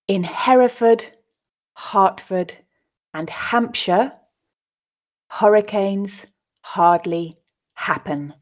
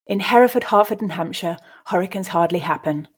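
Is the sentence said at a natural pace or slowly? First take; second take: slowly; natural pace. First: The sentence is said at a slow pace. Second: The sentence is said at a natural pace. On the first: "I'll read it first time slowly" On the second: "I'll then read it twice more at a more natural pace"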